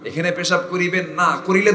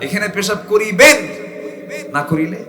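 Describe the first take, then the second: First: The pause falls after the word 'না'. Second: The pause falls after the word 'করিবেন'. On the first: Urinating here is forbidden, and doing it costs a fine. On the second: Urinating here is required, and not doing it costs a fine.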